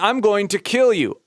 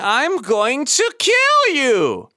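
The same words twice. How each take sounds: First: It stays in chest voice, in one area. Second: It moves dynamically between different resonances. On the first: The speaker calls it wrong. "all in our chest voice, all in one area" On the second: The speaker calls it right. "we let our speech be extra dynamic"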